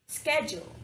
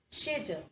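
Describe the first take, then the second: First: It is said the American way. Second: It is said the British way. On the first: "In American English, it is pronounced as schedule" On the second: "and in British English, it is pronounced as schedule"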